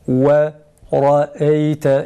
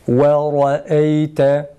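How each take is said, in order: Both takes have the same delivery.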